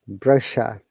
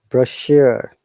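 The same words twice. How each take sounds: First: It is said with a British pronunciation. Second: It is said with an American pronunciation. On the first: "British says brochure" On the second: "But American said brochure"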